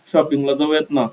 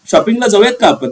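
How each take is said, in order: First: It is said in a coaxing, nasal voice. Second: It is said in a plain, direct voice.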